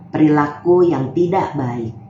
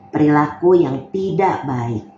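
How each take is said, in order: No difference in how they are said.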